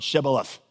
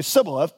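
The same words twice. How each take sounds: First: "Shibboleth" said with a clear sh at the start. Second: "Sibboleth" said with a plain s instead of sh. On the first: Preacher showing the password word, sh sound. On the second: Preacher showing the Ephraimite slip, s for sh. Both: Shown as a demonstration. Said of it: "could not pronounce it right".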